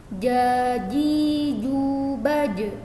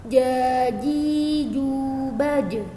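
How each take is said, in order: The two takes are said the same way.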